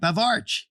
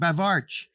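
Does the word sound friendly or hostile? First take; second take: friendly; hostile. First: It is said in a friendly, greeting tone. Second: It is said in a hostile, insulting tone. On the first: It is a greeting. The speaker calls it right. "So if you say it right" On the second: It calls the listener a bastard. The speaker calls it wrong. "If you say it wrong"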